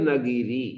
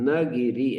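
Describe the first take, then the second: The two takes are said the same way.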